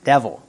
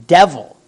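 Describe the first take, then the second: First: Said in the usual way. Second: "Devil" said again much louder, with a falling tune; emphatic loud repeat. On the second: Real, not acted. Preacher repeats the answer to the church, loud and emphatic. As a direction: hammer home "Devil".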